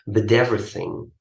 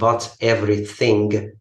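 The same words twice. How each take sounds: First: The two words are linked together. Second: The two words are said separately. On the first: The speaker calls it right. "this is the pronunciation" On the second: The speaker calls it wrong.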